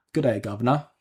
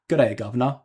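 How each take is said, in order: First: Light British greeting, a touch of Cockney; British accent. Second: Louder, hammed-up Cockney greeting; broad Cockney. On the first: Pretend. Streamer greets a viewer in a British accent. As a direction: tip the hat in a mild British accent. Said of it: "If we say it more Cockney or British than that". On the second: Streamer nails the viewer's request in broad Cockney. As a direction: go full Cockney on it. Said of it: "If we say it more Cockney or".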